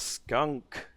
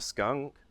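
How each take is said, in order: First: The final k is released with an audible breath. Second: The final k is a short, clipped tongue click. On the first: "there's a definite exhale. It makes it a little aspirate" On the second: "it's a click of the tongue"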